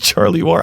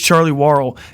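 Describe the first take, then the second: First: The surname begins with a 'wor' sound. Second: The surname begins with a 'war' sound. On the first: The speaker calls it wrong. "I pronounced it wrong" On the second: The speaker calls it right. "pronounced Warrell"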